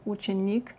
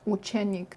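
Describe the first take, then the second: First: The unstressed E vowel sounds like I. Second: The unstressed E vowel sounds like full E. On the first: The speaker calls it right. "is pronounced ученик" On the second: The speaker calls it wrong. "not ученик"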